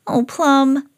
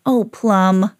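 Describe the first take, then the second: First: Higher-pitched mild reproach; a touch of high dismay; Sam. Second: Gracie's dismay. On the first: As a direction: lament a naughty dog, pitched up. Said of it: "said Sam". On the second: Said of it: "said Gracie". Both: A narrator's reading.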